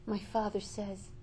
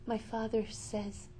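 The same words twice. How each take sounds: The two takes are said the same way.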